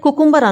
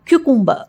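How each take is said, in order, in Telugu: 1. ఈ పదం సాధారణ 'koo' శబ్దంతో మొదలవుతుంది. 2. ఈ పదం 'kyoo' శబ్దంతో మొదలవుతుంది. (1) "కుకుంబర్ అనకూడదు"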